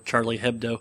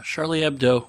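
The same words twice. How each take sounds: First: The name is said with an American pronunciation. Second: The name is said with a French pronunciation. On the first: "if you're American" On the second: "I'm guessing that that's the French pronunciation"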